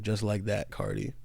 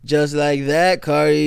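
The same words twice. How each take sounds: First: Low, muted "Just like that, [name]", fading on "[name]"; quiet, bemused quote of "Just like that, [name]". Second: Hint of [name]'s delivery, echoing the line; imitating [name]. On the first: Retold or imitated. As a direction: murmur "Just like that, [name]" softly, in disbelief. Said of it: "how the youth will perceive him saying". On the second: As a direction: lightly mimic "Just like that, [name]" a bit louder. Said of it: "But anyways".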